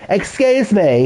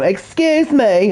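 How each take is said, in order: First: Mock prissy excuse me, higher; lightly voiced prim little man; imitating the father. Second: Slow, high, prissy mock of the father; imitating the father. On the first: Streamer to chat, mocking the father's voice. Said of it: "this is how he talks as well". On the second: Streamer to chat, hamming up the father's prim voice. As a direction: Excuse me drawn out slow and much higher. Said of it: "That's what he sounds like".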